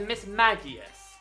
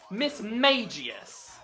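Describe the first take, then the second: First: The middle does not sound like 'mage'. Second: The middle sounds like the word 'mage'. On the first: The speaker calls it right. "This is a Miss Magius" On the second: The speaker calls it wrong. "likes to call it Miss Magius"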